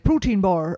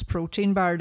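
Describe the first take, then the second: First: Protein bar with bar said as boar; Mullingar pronunciation. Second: Said in the usual way. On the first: Shown as a demonstration. Podcaster mimicking the Mullingar fitness guy saying protein bar as boar. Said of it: "he pronounces protein bar, like". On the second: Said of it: "he pronounces protein bar".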